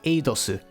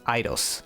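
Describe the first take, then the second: First: The name ends with an added su syllable. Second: The name ends on the s sound. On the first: "in Japanese they pronounce it as Eidosu" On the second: "pronounce it as Eidos, like the game company"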